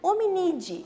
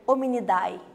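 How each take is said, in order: First: The ending is said with only an 'e' sound. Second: The ending is said with both 'a' and 'e'. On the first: The speaker calls it right. "Você omite o som da letra A e lê só com a letra E no final" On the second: The speaker calls it wrong. "você não vai ler Hominidae"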